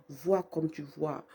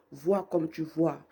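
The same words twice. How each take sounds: The two takes are said the same way.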